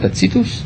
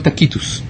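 First: The middle consonant is a ts sound. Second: The middle consonant is a k sound. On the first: "יש אומרים שקוראים לו טציטוס" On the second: "יש אומרים שקוראים לו טקיטוס"

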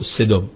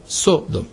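First: The first vowel is a short 'e' sound. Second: The first vowel is an 'o' sound. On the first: This is the Hebrew form of the name. "לא סדום" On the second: This is the form written in the Greek translation. "באמת היה כתוב סודום"

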